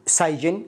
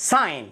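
First: "سايجن" with the g sounded; wrong pronunciation. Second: "sign" with a silent g; correct pronunciation. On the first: Teacher warning learners off a mistake, "سايجن" with g pronounced. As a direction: say "سايجن" in two syllables with an audible g. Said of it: "وليست". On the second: Teacher modelling for learners, "sign" with the g dropped. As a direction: say "sign" as "sine", no g. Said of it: "وليست سايجن". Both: Shown as a demonstration.

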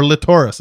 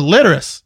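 First: Latoris as la-TOR-is; stress on second syllable. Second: Litteris as LIT-er-is, pitched up then falling; stress on first syllable. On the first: Allowing the other reading of the name, Latoris stressed on TOR. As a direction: put the weight on TOR in Latoris. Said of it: "this other inflection in the name". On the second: Correcting co-hosts on the man's name, Litteris stressed on LIT. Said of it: "His name is Litteris". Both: Shown as a demonstration.

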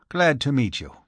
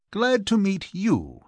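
First: Said in the usual way. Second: High, drawn-out greeting falling at the end; handsome, gracious reply. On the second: A narrator's reading. Archie handsomely returns Mister Connolly's greeting, gracious and expansive. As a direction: return the greeting grandly, slow and high-pitched. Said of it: "said Archie handsomely".

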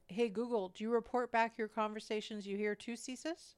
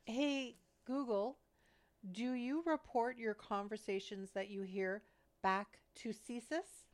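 First: Talking through a mouthful; words round a bite of food; mouth full. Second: Slow, careful repeat to the speaker; repeating to voice assistant. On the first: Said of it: "I had a mouthful of food". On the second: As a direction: say it slowly for the machine. Repeats question slower. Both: Real, not acted.

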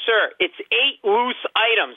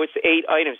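First: High, drawn-out exasperated retort; mock yelling. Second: Said in the usual way. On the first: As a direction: spell it out slowly at a higher pitch, fed up. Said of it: "And I'm yelling". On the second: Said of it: "she could see me getting worked up".

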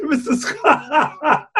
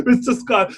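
First: High, slow, laughing Mister Scott; host breaking up while voicing the captain, laughing. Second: Said in the usual way. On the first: Laughing while calling the engineer.

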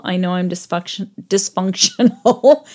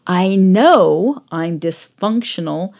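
First: Stumbling on "dysfunctional", breaking off at "dysfunction-" and restarting it; tripping over the word. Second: "dysfunctional" said slowly and deliberately, every syllable clear; slow down and land "dysfunctional" cleanly this time; careful retry. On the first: Real, not acted. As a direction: trip on "dysfunction-", then push out "dysfunctional" haltingly. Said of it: "I can't say words with syllables anymore". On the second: Shown as a demonstration. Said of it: "let me try that again".

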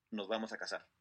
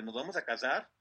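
First: Low, soft, matter-of-fact statement; retold promise, quietly settled with a falling end. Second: Puzzled question, rising at the end; retold disbelief. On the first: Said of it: "y le dice". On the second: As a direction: echo it back as a mildly stunned question. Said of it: "se quedó así como de".

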